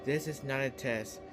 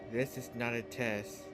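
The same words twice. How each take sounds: The two takes are said the same way.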